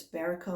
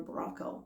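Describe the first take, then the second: First: Baraco said in three syllables; unsure pronunciation. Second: Braco said in two syllables; alternative pronunciation. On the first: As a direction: say Baraco with a vowel between B and r. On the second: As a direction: say Braco with B and r run together. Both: Shown as a demonstration. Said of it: "Never have a chance to say it".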